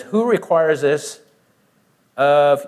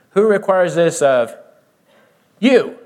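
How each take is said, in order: First: Said in the usual way. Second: You punched higher and louder at the end; stress on you. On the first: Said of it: "what is the key word in that phrase". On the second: Shown as a demonstration. Preacher driving home the word you, stressed. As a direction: land hard on the final you. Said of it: "the word that is emphasized is the word you".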